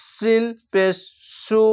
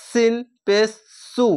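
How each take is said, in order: First: Said in the usual way. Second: সু with a sharp hissing s; hissed s. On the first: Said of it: "এখানে দেখেন". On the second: Shown as a demonstration. Teacher correcting pupils, a hissing সু. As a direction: hiss the s in সু. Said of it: "এটি সিসকি মেরে হবে".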